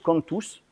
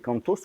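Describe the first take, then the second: First: The word is said with a Béarnais pronunciation. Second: The word is said in standard French.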